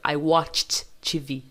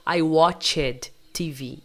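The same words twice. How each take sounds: First: WATCHED slowly as one syllable, "watcht"; no vowel before the T of WATCHED; correct ED as T. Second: WATCHED in two syllables, "watch-ed"; common wrong ED. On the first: Teacher corrects the common mistake, ED as T. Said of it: "na verdade, não". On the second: Teacher imitates what many learners would say, extra syllable. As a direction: voice a full ED vowel in WATCHED. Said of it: "Muita gente falaria". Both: Shown as a demonstration.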